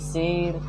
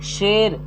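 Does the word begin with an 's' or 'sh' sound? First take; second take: s; sh. First: The word begins with an 's' sound. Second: The word begins with a 'sh' sound. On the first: The speaker calls it wrong. "ना कि शेर" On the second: The speaker calls it right. "शेर ना कि शेर"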